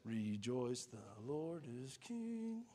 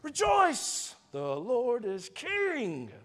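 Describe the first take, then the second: First: It is said quietly and without energy. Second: It is said loudly as a joyful shout.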